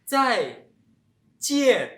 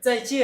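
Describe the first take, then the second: First: The phrase is said slowly. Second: The phrase is said quickly.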